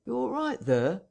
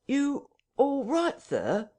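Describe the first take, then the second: First: Higher-pitched questioning call, rising at the end; Hall's inquiry. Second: High, slow, insistent question; sharp questioning. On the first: Hall calls to those inside the parlour, high and questioning. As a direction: call through the door, checking on them. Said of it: "asked Hall, rapping". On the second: Hall calls again after the struggle, sharply insistent. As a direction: press the question sharply, drawing it out. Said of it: "asked Mister Hall sharply, again". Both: A narrator's reading.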